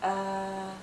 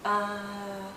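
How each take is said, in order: The two takes are said the same way.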